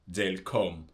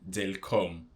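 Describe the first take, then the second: First: The first two words merge into one short syllable. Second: The same.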